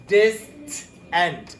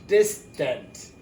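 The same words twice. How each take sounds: First: Distant. with the last part like tent; Distant. stressing a tent sound; tent ending. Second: Distant. with a weak uh ending, tuhnt; relaxed Distant. the A becoming uh; schwa ending. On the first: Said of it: "It sounds like tent". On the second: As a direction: say Distant. with a reduced second vowel. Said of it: "It sounds like an E". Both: Shown as a demonstration.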